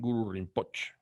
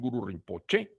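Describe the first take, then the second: First: The final vowel is nearly silent. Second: The final vowel is clearly pronounced. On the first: This is how Tibetans say it. "Los tibetanos dicen Guru Rinpoche. La E prácticamente es muda" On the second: This is how Spanish speakers say it. "nosotros decimos"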